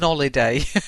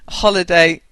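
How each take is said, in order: First: The word begins without an H sound. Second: The word begins with a clear H sound. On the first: "unless you're going to drop your H, and that'd be an holiday" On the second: "you pronounce the H"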